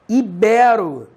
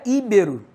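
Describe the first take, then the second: First: The stress is on the second syllable. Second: The stress is on the first syllable. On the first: The speaker calls it right. "E sim ibero. Sem acento. ... Ou melhor, paroxítono" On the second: The speaker calls it wrong. "Não é íbero"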